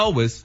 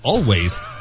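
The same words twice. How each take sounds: First: The word is said in a relaxed, casual way. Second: The word is said carefully, sounding out every letter. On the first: This is how people actually talk. The speaker calls it right. "So my point has been not always" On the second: This is reading the word from its letters. The speaker calls it wrong. "look at all the letters and say"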